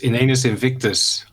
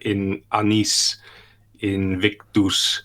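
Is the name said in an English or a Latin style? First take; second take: English; Latin. First: The name is said in a plain English style. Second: The name is said in a Latin style.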